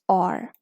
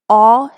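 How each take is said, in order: First: It is said as in American English. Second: It is said as in British English.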